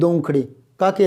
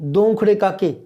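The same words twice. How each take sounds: First: A pause breaks the phrase before the last word. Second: All three words run together without a pause. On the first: The two standing there are separated from the question of whose feet to touch. The speaker calls it right. "ये बीच में विराम आ रहा है ना" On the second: The phrase is grouped in a way that makes no sense. The speaker calls it wrong. "ऐसे थोड़ी बोला जाएगा, ये तीनों एक साथ थोड़ी बोले जाएंगे"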